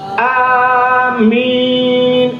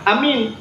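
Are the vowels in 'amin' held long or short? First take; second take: long; short. First: Both vowels are drawn out long. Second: The vowels are said short. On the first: It asks God to accept the prayer. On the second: It means trustworthy.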